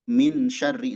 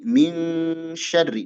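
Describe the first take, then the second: First: "min syarri" with a clear n, no ng; unhidden n. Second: "min syarri" with n hidden as a held ng; held ikhfa. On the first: Teacher showing how not to read it, "min syarri" with clear n. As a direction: close "min" on a plain n before "syarri". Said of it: "Nah, enggak, tapi". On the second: Teacher showing the correct reading, "min syarri" with long hidden n. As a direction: hold a humming "ming" before going into "syarri". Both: Shown as a demonstration.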